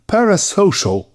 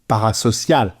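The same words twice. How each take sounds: First: It is pronounced with an English accent. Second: It is pronounced with a French accent.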